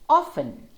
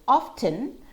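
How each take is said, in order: First: The T sound is left out. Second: The T sound is clearly pronounced. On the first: "with a silent T" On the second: "Without a silent T"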